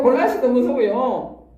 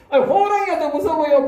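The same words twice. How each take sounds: First: Said in the usual way. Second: High, laughing punch on 호랑이가; mock-incredulous, a laugh in the voice on 호랑이가; laughing rhetorical question. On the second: (호랑이가에 웃음 섞인 높은 강조)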